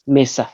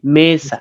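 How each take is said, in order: First: The word is said short, without lengthening. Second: The word is said drawn out, prolonged. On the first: The speaker calls it right. "Yes, mesa" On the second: The speaker calls it wrong. "not mesa ... Don't prolong it"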